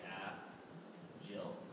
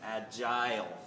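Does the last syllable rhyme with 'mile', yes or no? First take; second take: no; yes. First: The last syllable has a short, reduced vowel, not rhyming with 'mile'. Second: The last syllable has a long 'eye' vowel, rhyming with 'mile'. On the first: The speaker calls it wrong. "Some people say agile, and those people are wrong" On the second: The speaker calls it right. "The correct pronunciation is agile, like an I"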